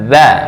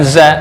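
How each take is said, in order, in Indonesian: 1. Konsonan pertama itu bunyi lembut seperti th. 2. Konsonan pertama itu z biasa yang berdengung. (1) "Ujung ujung lidah dengan gigi atas" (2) "Bukan za"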